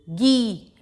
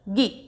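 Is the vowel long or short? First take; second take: long; short. First: The vowel is long and drawn out. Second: The vowel is short and said quickly. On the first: "बड़ी की मात्रा लगेगी तो" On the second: "उसको हम जल्दी से बोलते हैं"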